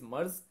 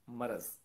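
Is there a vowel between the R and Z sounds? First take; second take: no; yes. First: The r and z are run together, no vowel. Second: A short vowel separates the r and z. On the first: The speaker calls it wrong. "The wrong वर्ड इज" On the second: The speaker calls it right. "The correct वर्ड इज"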